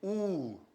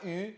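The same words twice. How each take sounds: First: The letter name has a German pronunciation. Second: The letter name has a French pronunciation. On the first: The speaker calls it right. "c'est U" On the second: The speaker calls it wrong. "pas U"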